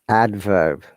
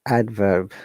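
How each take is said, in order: The two takes are said the same way.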